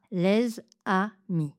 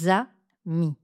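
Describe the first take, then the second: First: Les amis coupé lez-amis; découpage erroné. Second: Les amis coupé lé-za-mis; découpez le Z avec amis; découpage correct. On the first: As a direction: gardez le Z avec les. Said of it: "et pas". (mauvais découpage de la liaison) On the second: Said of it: "je découpe ensuite les". (bon découpage de la liaison) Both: Shown as a demonstration.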